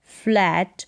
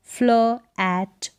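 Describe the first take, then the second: First: Said in the usual way. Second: फ्ल एट split by a pause; two separate parts, फ्ल and एट; sounded out. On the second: Shown as a demonstration. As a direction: say फ्ल, wait, then एट. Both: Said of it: "फ्ल होगा".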